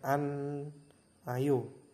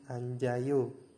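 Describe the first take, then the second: First: No j sound; it sounds like an-ayo. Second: A j sound links into the next syllable. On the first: The speaker calls it wrong. "kalau misalkan teman-teman membaca sesuai tulisannya itu biasanya an ayo begitu" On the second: The speaker calls it right. "salah satunya naik ke atas menggantikan iyengnya menjadi anjayo"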